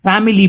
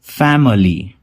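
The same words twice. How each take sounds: First: फैमिली with a full "mee" syllable; wrong way. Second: फैमिली with a weak "muh" middle; correct schwa. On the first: Teacher showing the common wrong pronunciation. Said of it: "काफी लोग इसे फैमिली pronounce करते हैं". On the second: Teacher modelling the corrected pronunciation. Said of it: "वो म रहेगा". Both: Shown as a demonstration.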